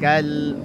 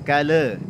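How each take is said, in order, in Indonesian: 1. Kata itu berakhir bersih pada l. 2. Ada vokal tambahan setelah l. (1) "tapi kal" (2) "jangan kale"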